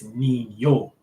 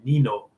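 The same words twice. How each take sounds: First: The middle consonant is an ny sound. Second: The middle consonant is a plain n sound. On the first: "the N with the um the the little squiggly line on the top, it's Nino" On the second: "If it was just regular N I N O, it would just be it would be Nino"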